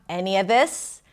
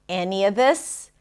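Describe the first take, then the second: The two takes are said the same way.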